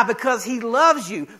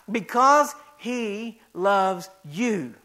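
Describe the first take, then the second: First: Said in the usual way. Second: Very slow, gentle assurance; tender repeat. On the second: Acted. Pastor reassuring listeners of God's love, slow and tender.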